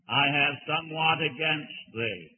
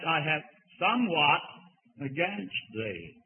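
First: The word somewhat gets no special emphasis. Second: The word somewhat is strongly emphasized.

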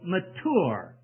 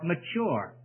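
First: The middle consonant is a hard 't' sound. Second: The middle consonant is a 'ch' sound. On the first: "other people say mature, hard T sound" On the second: "we always gave it that CH sound for mature"

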